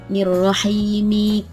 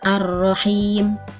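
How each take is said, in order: First: It ends on an 'i' vowel, linked onward. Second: It ends on a consonant with no vowel. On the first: The speaker calls it right. "tetapi tetap dibaca harkat kasrohnya" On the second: The speaker calls it wrong. "tidak seperti ini"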